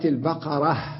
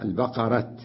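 First: The word ends with a soft h sound. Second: The word ends with a clear t sound. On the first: This is the common way to pause on the word. "اللغة الشائعة" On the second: This is a rare dialect way to pause on the word. "وقف عليها بالتاء"

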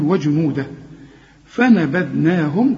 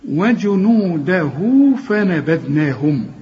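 First: The first word ends short, then a pause. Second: The words join with a lengthened final vowel. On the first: The reciter stops after the first word. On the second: The reciter joins the words without stopping.

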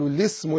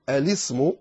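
First: The word begins directly with an L sound. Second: The word begins with a glottal stop and vowel. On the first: "تختصر وتحذف الهمزة كلها" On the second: "الأصل أن تقول"

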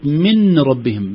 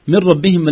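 First: The n is pronounced clearly before the r. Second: The n merges completely into the r. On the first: The speaker calls it wrong. "ليست" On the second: The speaker calls it right. "تقول مر كأني لا توجد نون أبدا"

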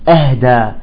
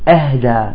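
No difference in how they are said.

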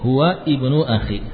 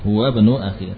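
First: The word ibnu starts with its own vowel. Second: Huwa runs straight into bnu, dropping the vowel.

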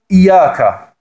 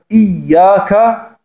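First: The y sound is single and short. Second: The y sound is doubled and held longer. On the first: The speaker calls it wrong. "dann hat man nur ein Ja gesprochen" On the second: The speaker calls it right. "ein doppeltes Y, eine Shadda"

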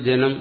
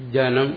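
First: It is said the relaxed, everyday Malayalam way. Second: It is said with careful, exact Sanskrit articulation. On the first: The speaker calls it wrong. "നമ്മൾ സാധാരണ പറയുന്ന പോലെ ജനം എന്ന് പറയാൻ പാടില്ല" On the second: The speaker calls it right. "ജനം എന്ന് പറയുമ്പോൾ ഒരു സർക്കസ് അഭ്യാസം പോലെ ആവും. പക്ഷെ അതാ ശരി"

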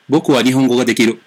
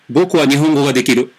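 Both takes have the same delivery.

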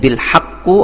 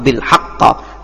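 First: The word ends with a u vowel. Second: The word ends with an a vowel. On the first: "tidak akan mungkin bil haqqu" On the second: "atau bil haqqa"

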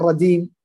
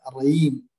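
First: The middle consonant is a d sound. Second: The middle consonant is a y sound. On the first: "الأطفال أحيانا الرديم" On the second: "نطق الجيم عند بعض يعني بعض يعني مثلا الرييم"

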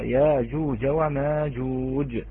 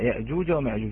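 First: A long aa vowel replaces the glottal stop. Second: A glottal stop follows the first vowel. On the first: "وباقي القراء يبدلونها وورش منهم، فإذا يقرأ" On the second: "فحفص يقرأ يأجوج ومأجوج"

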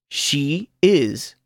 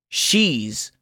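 First: The two words are said in full. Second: The words are joined into one syllable. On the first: "oirá el verbo sin contracción" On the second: "luego contraído con el pronombre personal"

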